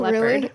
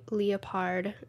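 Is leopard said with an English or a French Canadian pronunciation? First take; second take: English; French Canadian. First: The word has an ordinary English pronunciation. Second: The word has a French Canadian pronunciation. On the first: "instead of Leopard" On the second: "The French Canadians say Leopard"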